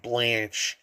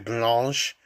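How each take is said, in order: First: The word is pronounced with English sounds. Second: The word is pronounced with French sounds. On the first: "but I'm just saying Blanche" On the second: "I believe I'm supposed to say blanche"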